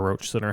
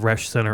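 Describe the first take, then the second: First: The name is said like 'roach'. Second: The name is said like 'resh'. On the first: "or Roach Center" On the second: "It's the Resh Center"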